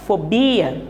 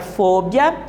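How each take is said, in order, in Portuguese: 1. Ela tem o padrão de acentuação português. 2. Ela tem o padrão de acentuação espanhol. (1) "es diferente de la forma fobia, del portugués" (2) "la sílaba tónica en la palabra fobia, en español"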